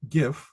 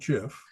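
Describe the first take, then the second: First: It begins with a hard g sound. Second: It begins with a soft j sound. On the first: The speaker calls it right. "because it's graphic" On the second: The speaker calls it wrong. "It's not Jurassic"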